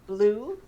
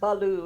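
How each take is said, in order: First: The B and L blend into one sound. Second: An extra vowel separates the B and L. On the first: The speaker calls it right. "it's just blue" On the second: The speaker calls it wrong. "it's not baloo"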